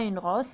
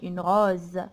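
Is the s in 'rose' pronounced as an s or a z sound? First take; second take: s; z. First: The s in rose sounds like s. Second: The s in rose sounds like z. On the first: The speaker calls it wrong. "On ne dit pas une rose" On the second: The speaker calls it right. "On a prononcé Z"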